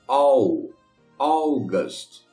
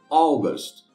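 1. A palavra é dita devagar. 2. A palavra é dita em velocidade normal. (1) "uma vez devagarinho" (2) "a outra normal"

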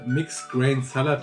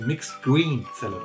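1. Das mittlere Wort hat einen 'ay'-Vokal. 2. Das mittlere Wort hat einen 'ee'-Vokal. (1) "Es gibt hier Mixed Grain Salad" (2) "die sprechen es immer aus wie Mixed Green Salad"

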